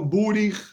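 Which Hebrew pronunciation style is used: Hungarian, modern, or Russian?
Hungarian. It is said in a Hungarian Ashkenazi way. "otro tipo de pronunciación, húngara"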